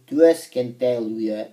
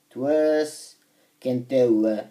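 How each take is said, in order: First: Said in the usual way. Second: "työskentelyä" drawn out at half speed; careful, slow second go at "työskentelyä"; slow sounding-out. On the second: Real, not acted. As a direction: sound out "työskentelyä" slowly, part by part. Repeats stumbled word slowly.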